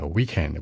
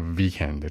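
First: It starts with rounded lips, a w sound. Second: It starts with teeth on lip, a v sound. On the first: The speaker calls it right. "嘴撅起来weekend" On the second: The speaker calls it wrong. "不是weekend，注意不是上齿咬下唇啊"

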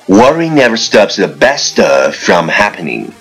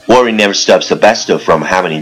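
First: The sentence is spoken at a moderate pace. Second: The sentence is spoken very fast, in one breath. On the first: "跟上我的节奏。" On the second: "一口气最快语速"

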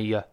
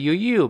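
First: The vowel is reduced to a weak uh. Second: The vowel is a full oo sound. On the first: "变成a" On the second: "原来的o"

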